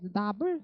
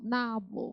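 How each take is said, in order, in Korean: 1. 두 음절 모두 똑같이 세게 강세를 줘요. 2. 첫 음절은 세고, 둘째 음절은 약해요. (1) "나불 이렇게 하지 마시고 둘이 공평하지 않아" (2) "나만 세고 부는 약해요"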